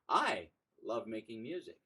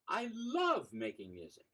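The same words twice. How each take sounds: First: The word "I" carries the stress. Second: The word "love" carries the stress.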